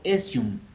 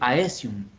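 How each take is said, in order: First: The word begins with a single eh vowel. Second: The word begins with two vowels, ah then eh. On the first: The speaker calls it right. "pero se pronuncia estado esial o esium" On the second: The speaker calls it wrong. "Hay gente que en español dice aesium"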